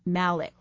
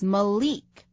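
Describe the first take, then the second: First: The second vowel is not an 'ee' sound. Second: The second vowel sounds like 'ee'. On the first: The speaker calls it wrong. "not Malik" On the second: The speaker calls it right. "the I is pronounced like an E. So this name is Malik"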